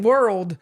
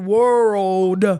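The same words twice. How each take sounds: First: The vowel is short and clipped. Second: The vowel is drawn out longer. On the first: The speaker calls it wrong. "the way I was saying world. Like that" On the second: The speaker calls it right. "it was supposed to be world. Like I had to drag it out more"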